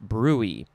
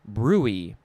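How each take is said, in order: First: It is said as two syllables, brewy. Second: The same.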